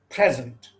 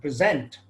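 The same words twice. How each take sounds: First: The stress is on the first syllable. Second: The stress is on the second syllable. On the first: It is used as a noun or adjective. "the stress falls on the first syllable" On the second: It is used as a verb. "the accent or the stress falls on the second syllable"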